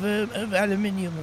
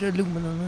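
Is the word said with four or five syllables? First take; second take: five; four. First: The word is said with five syllables. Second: The word is said with four syllables. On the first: This is the non-American way of saying it. The speaker calls it right. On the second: This is the American way of saying it. The speaker calls it wrong.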